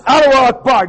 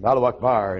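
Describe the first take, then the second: First: Loud, high-pitched shouted chant; imitated yelling. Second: Said in the usual way. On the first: Correcting the man in the headlock story, shouted imitation. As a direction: belt it out as a mock battle cry. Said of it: "he's yelling at me like that".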